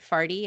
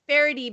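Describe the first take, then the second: First: The name is squeezed into two syllables. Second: The name is said with three syllables.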